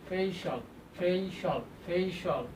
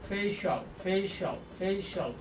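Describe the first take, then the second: No difference in how they are said.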